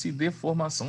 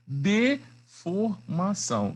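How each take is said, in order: First: Said in the usual way. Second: DEFORMAÇÃO slowly split as de, for, mação; syllable by syllable. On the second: Shown as a demonstration. Teacher presenting a key term to students, deformação broken into slow syllables. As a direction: draw out deformação with pauses between syllables.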